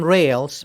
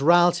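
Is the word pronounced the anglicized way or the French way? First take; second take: anglicized; French. First: The word is given an anglicized pronunciation. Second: The word is given its French pronunciation. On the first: The speaker calls it wrong. "make sure you don't call them rails" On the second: The speaker calls it right. "rals is French and that's the pronunciation"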